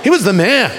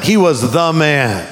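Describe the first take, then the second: First: "He was the man" quick and raised; brisk, assertive "He was the man"; emphatic repeat. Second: "the" drawn out as "thee"; slow down and lean hard on "the"; slow, emphatic "He was the man"; stress on THE. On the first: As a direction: say "He was the man" as one punchy phrase. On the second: Punches THE to praise Jesus. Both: Shown as a demonstration.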